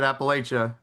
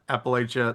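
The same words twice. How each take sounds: First: It is said the way northerners pronounce it. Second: It is said the way southerners pronounce it. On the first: The speaker is from above the Mason-Dixon line. "I heard you pronounce it Appalachia. That's okay because you're above the Mason-Dixon line" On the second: The speaker is from south of the Mason-Dixon line. "If you're south of the Mason-Dixon line, you call it Appalachia"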